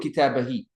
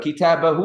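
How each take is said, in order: First: The final pronoun ends with an 'ee' vowel. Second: The final pronoun ends with an 'oo' vowel. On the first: The speaker calls it wrong. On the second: The speaker calls it right.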